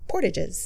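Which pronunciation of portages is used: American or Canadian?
American. It is pronounced the American way. "if you're from the U.S"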